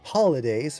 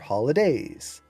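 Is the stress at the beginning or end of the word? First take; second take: beginning; end. First: The stress falls on the beginning of the word. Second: The stress falls on the end of the word. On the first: "emphasize beginning or end of one word" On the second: "emphasize beginning or end of one word"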